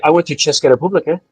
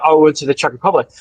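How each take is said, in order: First: "Česká republika" said the Czech way, CHES-kah re-POO-blee-kah; Czech pronunciation. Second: Said in the usual way. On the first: Shown as a demonstration. A speaker showing friends the Czech way, "Česká republika" in Czech. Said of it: "I don't say". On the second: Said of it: "when I say".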